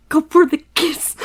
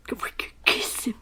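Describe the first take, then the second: First: Louder, higher firm call; decisive call. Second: Soft breathless whisper; whispered choice. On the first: Picking the kiss option, called out firmly. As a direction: commit to the choice out loud. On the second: Picking the kiss option, whispered to herself. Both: Real, not acted. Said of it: "Hold him or kiss him".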